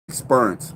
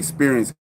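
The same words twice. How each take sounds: First: It is said with a Maryland local pronunciation. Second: It is said with a standard pronunciation. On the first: "people in Maryland used to talk like that" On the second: "They wouldn't say experience"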